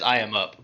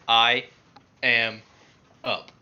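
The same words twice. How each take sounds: First: The words run together without pauses. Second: There is a pause between each word.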